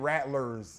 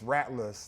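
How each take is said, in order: First: The final 'er' sound is fully pronounced. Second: The final 'er' sound is dropped. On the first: The speaker calls it wrong. "it ain't Rattlers" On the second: The speaker calls it right. "No E R at the end"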